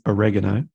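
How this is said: The word is said with an American pronunciation.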